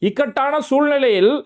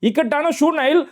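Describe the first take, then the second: First: The second word is pronounced clearly and fully. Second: The second word is slurred and shortened. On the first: This is the intended correct reading. The speaker calls it right. "அப்படிங்கிறதுக்காக தான்" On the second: Someone else read it this way. The speaker calls it wrong. "அப்படின்னு சொல்லி படிச்சுக்கிட்டு இருக்கிறாரு"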